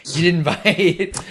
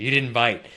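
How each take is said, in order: First: Drawn out slowly through a laugh, higher and louder; laughing teasingly at the dodge. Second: Said in the usual way. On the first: Real, not acted. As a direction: tease them, cracking up mid-line. Teasing, repeats the line laughing.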